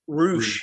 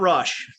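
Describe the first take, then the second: First: The vowel is a long oo sound. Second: The vowel is a short u sound. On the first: The speaker calls it right. "It is pronounced Roosh" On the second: The speaker calls it wrong. "not Rush"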